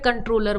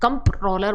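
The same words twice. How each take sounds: First: No m sound is heard before the t. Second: An m sound is heard before the t. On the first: This is the speaker's own way of saying it. "But मैं कंट्रोलर बोलती हूँ" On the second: This is how others say it. "कंट्रोलर बोलते हैं इसको, एम है यहाँ पे"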